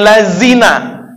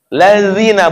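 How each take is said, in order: First: The consonant is a plain z sound. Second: The consonant is a soft th-like sound. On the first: The speaker calls it wrong. "bukan lazina" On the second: The speaker calls it right. "Lazina bukan lazina"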